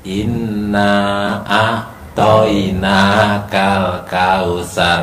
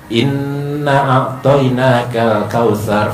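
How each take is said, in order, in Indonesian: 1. Dibaca lambat dengan bunyi yang dipanjangkan. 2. Dibaca cepat dengan ketukan pendek dan cepat. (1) "tidak nada slow. Jadi bukan" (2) "Satu menit sepuluh kali"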